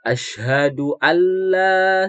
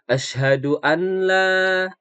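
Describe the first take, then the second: First: The n merges into the l and is not heard. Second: A separate n sound is heard before the l. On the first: The speaker calls it right. "asyhadu alla seperti itu" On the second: The speaker calls it wrong. "bukan asyhadu anla"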